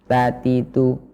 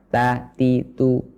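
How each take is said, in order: The two takes are said the same way.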